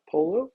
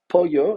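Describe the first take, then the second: First: It sounds like the word polo. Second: It is said the Spanish way, not like polo. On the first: The speaker calls it wrong. "and not polo" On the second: The speaker calls it right. "pronounce this word correctly as pollo"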